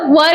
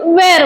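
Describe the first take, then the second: First: The vowel sounds like the one in 'fur'. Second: The vowel sounds like the one in 'air'. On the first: This is how it usually sounds. "वर याचा sound होतो बऱ्याचदा" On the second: Only some people say it this way. "काही काही जण वेअर म्हणतात"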